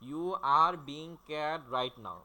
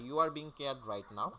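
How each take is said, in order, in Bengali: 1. এটা আলাদা আলাদা ছন্দের অংশে ভাগ করা। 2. এটা এক নিঃশ্বাসে মসৃণভাবে বলা হয়েছে। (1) "এইভাবে তালে তালে" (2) "একবারে"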